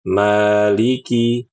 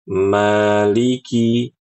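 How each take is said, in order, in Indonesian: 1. Vokal panjangnya ditahan selama dua ketukan. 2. Vokal panjangnya ditahan selama dua ketukan.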